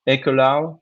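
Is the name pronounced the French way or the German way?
German. The name is pronounced the German way. "I'm not sure that's a good pronunciation in German"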